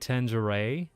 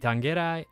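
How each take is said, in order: First: The name is said the American way. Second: The name is said a non-American way. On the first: "the more American one would be Tangeray" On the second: "Or it could be Tangerai"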